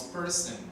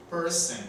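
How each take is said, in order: First: Person said softly with a schwa end, perse; soft English demo. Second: Person repeated higher and punchier, perse; emphatic repeat. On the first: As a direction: model person gently. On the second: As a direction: hit person again, louder, for the class. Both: Shown as a demonstration. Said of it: "la O al final suena como E".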